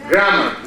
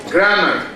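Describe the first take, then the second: Both takes have the same delivery.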